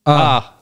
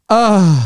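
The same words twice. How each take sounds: First: It is a plain, neutral ah. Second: It is a sensual, sultry ah.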